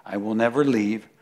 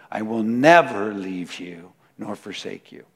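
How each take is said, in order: First: Said in the usual way. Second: 把 "never" 慢慢加重; 强调每一个 never; emphatic never. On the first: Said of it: "you have to say it three times". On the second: Shown as a demonstration. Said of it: "It's just emphatic".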